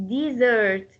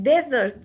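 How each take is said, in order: First: "desert" as a verb, di-ZERT; stress on second syllable. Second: "desert" as a noun, DEZ-ert; stress on first syllable. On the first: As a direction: lean on the sert of "desert". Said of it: "what about the verb desert". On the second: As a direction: hit the des of "desert". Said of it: "Desert is a noun". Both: Shown as a demonstration.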